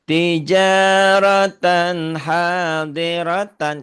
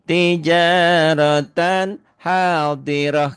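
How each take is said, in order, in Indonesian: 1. Kata terakhir berakhir dengan bunyi n. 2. Kata terakhir berakhir dengan bunyi h.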